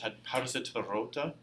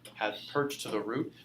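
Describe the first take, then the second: First: It is spoken with Middle English pronunciation. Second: It is spoken with modern English pronunciation.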